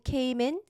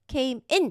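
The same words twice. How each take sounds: First: The two words are smoothly linked together. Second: The two words are said separately. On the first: The speaker calls it right. "came in 부드럽게 연결되는 거예요" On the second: The speaker calls it wrong. "came in 느낌이 아니고"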